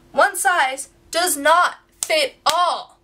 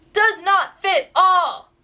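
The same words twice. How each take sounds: First: One size does not fit all, each word slowed and weighted; slow emphatic stress. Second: Does pushed higher and louder, slow; louder, higher repeat. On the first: Complaining to viewers about Brandy Melville, slow stressed words. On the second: Repeating her complaint to viewers, slow and louder stress. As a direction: hammer the repeat harder. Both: Shown as a demonstration. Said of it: "Number one".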